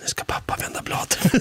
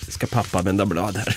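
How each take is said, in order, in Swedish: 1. Orden sägs med en viskning. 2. Orden sägs med en normal röst.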